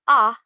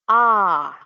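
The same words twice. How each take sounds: First: The vowel is short. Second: The vowel is held long. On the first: "imbis na ah lang yung marinig natin" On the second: "habaan lang natin yung pronunciation ng vowel sound"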